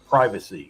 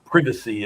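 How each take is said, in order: First: It is pronounced the American way. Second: It is pronounced the British way. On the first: This is how people here say it. "We say here" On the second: This is how people in Britain say it. "they say privacy"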